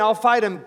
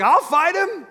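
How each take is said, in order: First: Said in the usual way. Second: Much higher, bold and eager; eager volunteer. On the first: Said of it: "him saying". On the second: Retold or imitated. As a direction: jump at the chance: I'll fight him. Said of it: "And David's like".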